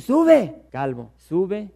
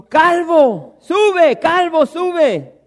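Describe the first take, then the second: First: Put-on a jeering boy calling after the old man; mocking taunt. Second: Shrill, much higher, shouted taunt, the last "calvo, sube" dragged slowly; mocking youths. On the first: Boys taunting Eliseo to go up, yelled then drawled. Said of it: "es lo que le están diciendo". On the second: Youths jeering at the prophet Eliseo, a loud high singsong taunt. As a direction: jeer at the bald prophet like a pack of boys. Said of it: "se burlaban de él".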